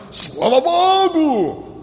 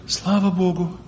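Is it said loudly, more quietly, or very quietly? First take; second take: loudly; more quietly. First: It is said loudly and proudly. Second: It is said more quietly.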